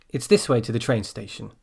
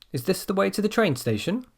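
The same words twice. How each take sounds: First: "station" falling at the end; downward statement intonation. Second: High voice, "station" rising at the end; upward question intonation. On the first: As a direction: state it, letting "station" drop. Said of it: "We go down when we make". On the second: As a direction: ask it, lifting "station" upward. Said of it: "The first one goes up". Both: Shown as a demonstration.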